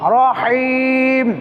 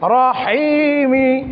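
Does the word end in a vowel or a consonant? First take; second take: consonant; vowel. First: The word ends on the m consonant. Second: The word ends with a short i vowel. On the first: The reading stops at this word. "যদি সাকিন করি রহিমিকে পড়তে হবে কি রহিম" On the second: The reading continues without stopping. "মিম জের মি"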